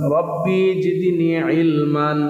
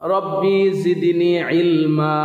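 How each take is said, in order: First: The last word ends with an n sound. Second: The last word ends with a drawn-out vowel.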